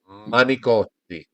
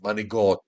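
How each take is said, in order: First: A hard C sound, with the final vowel kept. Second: A G sound, with the final vowel dropped. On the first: The speaker calls it right. "you pronounce the C" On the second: The speaker calls it wrong. "that's the Brooklynese and- or the Bronxese Italian is manigot"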